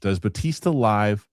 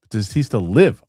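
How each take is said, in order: First: LIVE with a long i, rhyming with five; misreading LIVE with a long i. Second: LIVE with a short i, rhyming with give; corrected LIVE, short i as in give. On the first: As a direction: say LIVE as in live broadcast. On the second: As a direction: say LIVE as in live and breathe. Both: Real, not acted. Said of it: "Oh, live".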